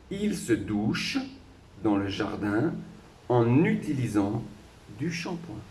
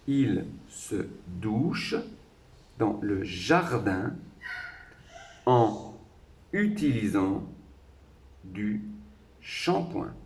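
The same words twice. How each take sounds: First: Final consonants link into the following vowel sounds. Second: Words are kept apart without any linking consonants. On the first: "une fois en entier, avec les, les liaisons" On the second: "Et cette fois-ci sans la liaison"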